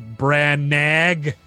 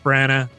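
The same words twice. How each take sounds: First: The name is said letter by letter as spelled. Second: The name is said in its usual reduced form.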